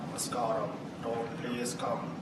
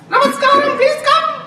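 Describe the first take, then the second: First: It is said with a low pitch. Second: It is said with a high pitch.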